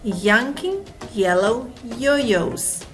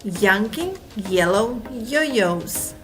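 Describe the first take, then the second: Both takes have the same delivery.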